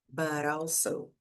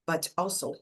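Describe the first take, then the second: First: The t sounds like a soft, quick r. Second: The t is pronounced clearly as a t. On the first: "a gente tem o som do T com o A" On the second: "existem sotaques em que você pronuncia ali mais o T"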